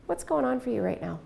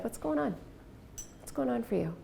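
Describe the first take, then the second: First: Plain calm question; calm, even, no leaning in. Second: Soft, even question; just ask simply and softly; quiet caring question; calm question. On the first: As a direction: ask it simply, no change of tone. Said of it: "I said it just like that". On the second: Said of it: "I didn't change my tone of voice". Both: Retold or imitated.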